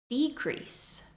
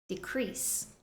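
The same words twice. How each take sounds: First: The stress is on the first syllable. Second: The stress is on the second syllable. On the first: It is a noun. "the noun form, stressing the first syllable" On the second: It is a verb. "the verb form, stressing the second syllable"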